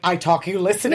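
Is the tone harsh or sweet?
harsh. It is said in a harsh, firm tone.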